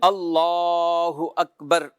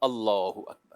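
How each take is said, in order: First: The phrase is stretched out and drawn long. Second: The phrase is said short, not drawn out. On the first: Worshippers should release their hands here. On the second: Worshippers should fold their hands here.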